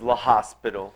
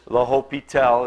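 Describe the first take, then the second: First: The name is said with an 's' sound. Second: The name is said without an 's' sound. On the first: The speaker calls it wrong. "don't pronounce it as La Hospital" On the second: The speaker calls it right. "It's L'Hopital is how you say it"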